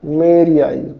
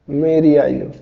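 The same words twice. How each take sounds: The two takes are said the same way.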